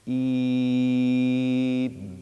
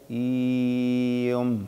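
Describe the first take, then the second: First: The long vowel stays steady up to the m. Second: The vowel shifts to another sound before the m. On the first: The speaker calls it right. "إيم وليس" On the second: The speaker calls it wrong. "كأنك تحدث صوتا مغايرا للمد قبيل نطقك بالميم"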